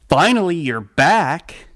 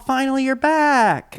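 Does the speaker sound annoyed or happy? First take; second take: annoyed; happy. First: The voice sounds annoyed and resentful. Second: The voice sounds warm and delighted. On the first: She is blamed for having been away. The speaker calls it wrong. "another way, it's like, oh" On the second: She was missed and is welcomed home. The speaker calls it right. "I love you. I missed you so much"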